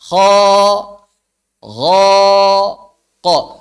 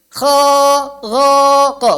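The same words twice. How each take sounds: First: The vowel is said with the mouth normally open. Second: The vowel is said with lips spread in a grin. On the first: The speaker calls it right. "Tapi dibuka" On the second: The speaker calls it wrong. "Jangan dinyengirin"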